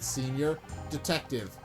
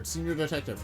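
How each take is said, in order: First: It is said slowly and deliberately. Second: It is said at normal speed.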